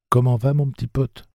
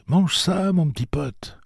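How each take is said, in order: First: Put-on young Jake, gently coaxing; gentle boy. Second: Put-on coaxing boy. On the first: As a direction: coax the animal gently as Jake. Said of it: "demanda doucement Jake". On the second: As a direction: coax the animal to eat. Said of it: "Jake coaxing the animal". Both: A narrator's reading.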